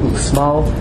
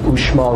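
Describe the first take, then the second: First: The x is pronounced as ks. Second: The x is pronounced as sh. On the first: The speaker calls it wrong. "rather than Uxmal" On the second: The speaker calls it right. "they pronounce it sh, so it's Uxmal"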